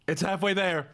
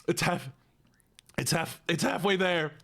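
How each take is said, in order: First: Said in the usual way. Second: Whispered encouragement to self; breathy self-pep talk under breath. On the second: Real, not acted. Psyching up mid-lemon.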